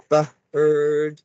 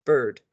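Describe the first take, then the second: First: "bird" split into "ba", then a long "ird"; sounds before blending. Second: Said in the usual way. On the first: Shown as a demonstration. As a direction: separate and stretch the sounds of "bird". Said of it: "we wanna say the sounds first". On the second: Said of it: "and then we'll blend it".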